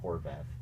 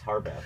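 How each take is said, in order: First: The first syllable sounds like 'hor'. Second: The first syllable sounds like 'har'. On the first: The speaker calls it wrong. "not Horvath, not H O R" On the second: The speaker calls it right. "it's Harbath, H A R"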